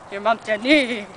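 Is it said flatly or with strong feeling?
strong feeling. It is said with strong, heightened feeling.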